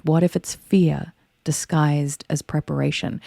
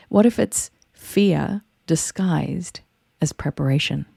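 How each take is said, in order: First: Said in the usual way. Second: "fear" set apart by pauses, then "disguised as preparation" measured. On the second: Real, not acted. First take, posed for effect.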